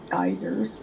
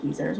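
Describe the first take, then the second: First: Said in the usual way. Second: "geysers" said as "geezers"; British pronunciation. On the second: Retold or imitated. Envying the accent they heard, "geysers" pronounced "geezers". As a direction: give "geysers" a long ee in the first syllable. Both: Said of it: "We just have geysers".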